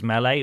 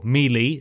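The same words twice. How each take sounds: First: Melee said as MEH-lay; usual pronunciation. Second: Melee said as MEE-lee; game's pronunciation. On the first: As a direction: pronounce Melee with a short first vowel and an "ay" ending. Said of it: "or Melee, as the game calls it". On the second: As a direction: pronounce Melee with two long "ee" sounds. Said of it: "as the game calls it". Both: Shown as a demonstration.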